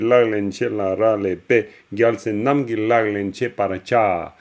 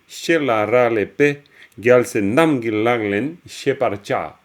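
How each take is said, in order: First: It is read in a steady beat, without phrase pauses. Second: It is read in phrases separated by pauses. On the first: It follows the metre of the verse. "je l'ai lu en profitant de la versification" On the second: It follows the grammatical structure of the sentence. "une lecture plus en prose... qui suit la structure"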